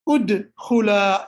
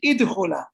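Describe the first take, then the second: First: The word begins with an 'u' vowel. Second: The word begins with an 'i' vowel. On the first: The speaker calls it right. "this hamza is going to have a dhamma on it as well. So here you will say udkhula" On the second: The speaker calls it wrong. "You won't say idkhula"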